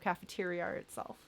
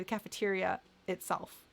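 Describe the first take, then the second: First: An R sound links the two words. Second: A glottal stop separates the two words.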